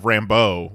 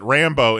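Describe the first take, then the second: First: The name is said with a French sound. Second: The name is said the plain English way. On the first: This is how the speaker always read the name. "which is how I always read it because it's it's like Frenchy" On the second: This is how the show says the name. "they pronounce it Rambo"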